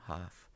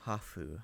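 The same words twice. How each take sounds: First: Said in the usual way. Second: Hafu said the Japanese way, ha-fu in two syllables; Japanese pronunciation. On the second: Shown as a demonstration. Explaining the Japanese word to viewers, Hafu said the Japanese way. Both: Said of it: "can both be translated as half Japanese".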